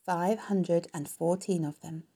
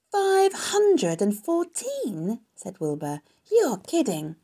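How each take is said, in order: First: Said in the usual way. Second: High, loud, drawn-out disbelief; astonished. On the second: A narrator's reading. Wilbur hears how many eggs, slow high astonishment. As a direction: stretch the number out in amazement.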